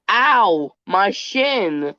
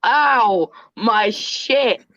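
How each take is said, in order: First: "shin" with a clear final n, a mild retold yelp of pain; a child's "Ow, my shin", ending cleanly on n. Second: "shit" with a hard final t, a little higher, as the mother heard it; misheard as shit. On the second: Retold or imitated. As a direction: retell it as "my shit", crisp t at the end. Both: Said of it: "my mom heard".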